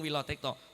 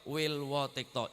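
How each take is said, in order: First: The name is said with one w sound. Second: The name is said with two w sounds. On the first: The speaker calls it wrong. "Mboten Tumenggung Wilotekto" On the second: The speaker calls it right. "sing leres niku tulisane Tumenggung Wilwotekto"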